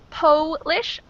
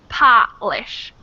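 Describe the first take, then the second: First: The first vowel is a long 'oh' sound. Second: The first vowel is an open 'ah' sound.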